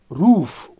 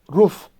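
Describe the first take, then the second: First: The vowel is long, as in boot. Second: The vowel is short, as in book. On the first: This is the standard form. "a standard one" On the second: This is one regional form. "like in book"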